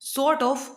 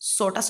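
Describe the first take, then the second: First: Both words are said fully and separately. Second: The words blend into one reduced word.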